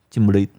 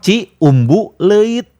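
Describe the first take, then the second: First: The name is squeezed into fewer syllables. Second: Every syllable of the name is said fully. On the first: This is how locals actually say it. "orang Bandungnya sendiri nyebutnya Cimbuluit" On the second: This is how the name is written. "Ditulisnya kan gampang"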